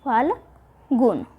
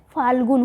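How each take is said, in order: First: फाल्गुन drawn out very slowly with a falling end; फाल्गुन spoken at half speed, each sound clear; slow model word. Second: Said in the usual way. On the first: Shown as a demonstration. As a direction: stretch फाल्गुन out for students to copy. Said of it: "फाल्गुन होता है". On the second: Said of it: "फाल्गुण नहीं होता है".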